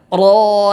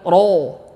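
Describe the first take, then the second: First: The lips are not pushed forward. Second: The lips are pushed forward and rounded. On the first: The speaker calls it right. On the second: The speaker calls it wrong.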